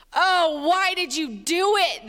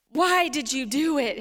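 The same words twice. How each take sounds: First: Loud, drawn-out narrated groan. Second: A hint of scolding parent; lightly voiced parent. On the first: A narrator's reading. Sailors to runaway Jonah, groaning in dismay. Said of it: "they groaned". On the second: Parent to a child in trouble, mildly reproachful. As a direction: repeat it like a reproachful parent, usual pitch. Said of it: "heard that from your parents".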